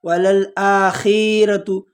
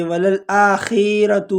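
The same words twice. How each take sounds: First: وللآخرۃ slowly, خ short with no ی; correct recitation. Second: وللآخرۃ with خ stretched and a ی slipped in; mistaken stretched kha. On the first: Teacher giving the correct form after the mistake. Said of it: "بلکہ یہاں پر یا نہیں ہے". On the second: Teacher imitating a common mistake, plain voice. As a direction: say وللآخرۃ wrongly with a long خی. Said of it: "وہ پڑھتے ہیں وللآخرۃ". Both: Shown as a demonstration.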